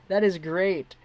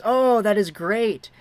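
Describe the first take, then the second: First: Said in the usual way. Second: Excited. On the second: Real, not acted. Reacting to chat's cameo purchase.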